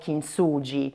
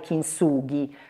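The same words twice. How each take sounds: First: The word is pronounced the Italian way. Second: The word is pronounced the Japanese way. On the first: "noi lo leggiamo kintsugi eh, in italiano" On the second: "dovrebbe pronunciare kintsugi"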